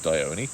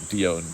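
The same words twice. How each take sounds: First: The name is said in its standard pronunciation. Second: The name is said in a nonstandard pronunciation. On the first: This is how the name is properly said. The speaker calls it right. "but the name is Dione" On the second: This is how the speaker usually says it. The speaker calls it wrong. "I always pronounce it Dione"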